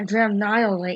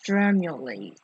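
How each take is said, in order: First: The middle syllable sounds like 'mnee'. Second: The middle syllable sounds like 'mu'. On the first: The speaker calls it wrong. "so I was wrong. It's not Dramnylate" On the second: The speaker calls it right. "it's Dramulate"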